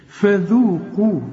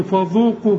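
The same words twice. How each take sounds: First: Slow light model "فذوقوا"; very light letters. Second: "فذوقوا" with dark "fo" and thick dhal; "فذوقوا" said too heavy; wrong heavy dhal. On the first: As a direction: keep "فذوقوا" light, like "fezooqu". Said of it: "رقق قوي". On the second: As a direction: mistakenly darken "فذوقوا". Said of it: "مش تقول لي فذوقوا". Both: Shown as a demonstration.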